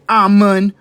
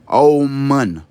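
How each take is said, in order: First: It starts with a plain 'ah' and ends in 'oon'. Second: It starts with an 'aum' sound and ends in 'oon'. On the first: The speaker calls it wrong. "Don't say Amun" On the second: The speaker calls it right. "Say Aumun. The same way you would say your Om, but put the A in front of it"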